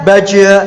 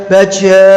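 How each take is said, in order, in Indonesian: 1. Konsonan akhirnya dilepas dengan vokal. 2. Konsonan akhirnya dilepas dengan vokal.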